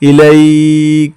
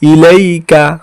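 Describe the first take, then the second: First: The word ends on k, vowel dropped. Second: The word ends with a short a vowel. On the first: The reader stops at this word. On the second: The reading continues without stopping.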